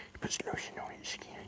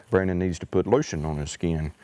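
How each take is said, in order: First: Hushed, teasing whisper about Brandon; whispered aside. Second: Said in the usual way. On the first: Real, not acted. Teasing Brandon to the viewers in a whisper. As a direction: let it slip as a secret whisper.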